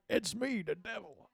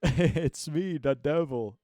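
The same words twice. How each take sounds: First: Much higher squeaky devil, fading softer. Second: Loud, booming devil voice. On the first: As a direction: pitch it way up as a silly devil. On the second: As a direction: boom it out as a mock devil. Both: Acted. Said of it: "a troll".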